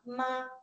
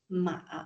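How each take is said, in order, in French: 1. La hauteur reste haute et stable. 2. La hauteur descend bas, puis remonte.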